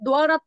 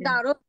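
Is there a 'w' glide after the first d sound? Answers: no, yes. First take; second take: yes; no. First: The d is followed by a clear w glide. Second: The d goes straight into the vowel, no glide. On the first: This is the Pali reading of the letter cluster. "কোনো অক্ষরের নিচে যেগুলো ব থাকে, এগুলো ওয়া উচ্চারণ হয়।" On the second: This is the everyday Bengali reading of the cluster. "আমরা বলি যে দারত"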